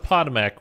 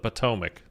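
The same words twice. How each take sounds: First: The name is said the outsider way. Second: The name is said the local way. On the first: The speaker calls it wrong. "it is not the Potomac River" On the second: The speaker calls it right. "it's the Potomac"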